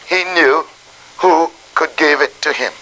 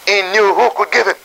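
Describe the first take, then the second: First: It is said slowly and deliberately. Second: It is said at a normal, quicker pace.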